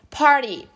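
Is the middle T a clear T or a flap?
flap. The middle T is a soft flap.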